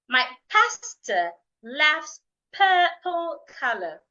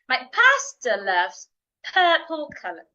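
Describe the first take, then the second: First: The sentence is said slowly. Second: The sentence is said fast. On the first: "I'll say slowly first" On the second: "Let's say it faster"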